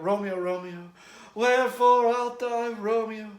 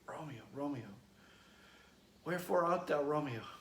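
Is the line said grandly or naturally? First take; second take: grandly; naturally. First: It is said in a grand, reverent manner. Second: It is said plainly, like normal talk.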